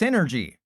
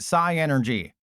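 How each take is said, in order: First: It is said like the word 'synergy'. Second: It is said as 'sigh' plus 'energy'. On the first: The speaker calls it right. "it's pronounced Synergy" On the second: The speaker calls it wrong. "I always pronounced it Psy Energy"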